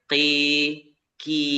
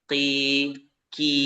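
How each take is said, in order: Both takes have the same delivery.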